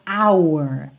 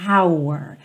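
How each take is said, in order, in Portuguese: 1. A palavra é totalmente articulada, com muito movimento da boca. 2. A palavra é totalmente articulada, com muito movimento da boca.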